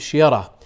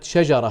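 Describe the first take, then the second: First: The middle consonant is a y sound. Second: The middle consonant is a j sound. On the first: "يقول شيرة" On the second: "حين النطق بكلمة شجرة"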